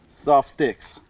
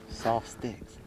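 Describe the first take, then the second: First: It is said loudly. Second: It is said softly.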